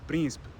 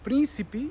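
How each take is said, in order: First: The unstressed vowels are left out almost entirely. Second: The unstressed vowels are pronounced fully and clearly. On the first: This is a more extreme Portuguese version. "or even just príncipe" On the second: This is how it is said in Brazil. "might be príncipe in Brazil"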